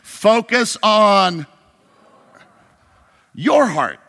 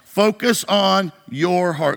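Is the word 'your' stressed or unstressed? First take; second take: stressed; unstressed. First: The word 'your' is strongly stressed. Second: The word 'your' is not specially stressed.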